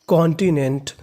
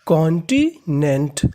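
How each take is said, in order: First: Said in the usual way. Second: continent drawn out slowly, each syllable separate. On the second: Shown as a demonstration. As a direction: spell out continent slowly for students. (Continent को धीरे-धीरे, हर हिस्सा अलग बोलें) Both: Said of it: "तो पूरी meaning मिला के पढ़ते हैं".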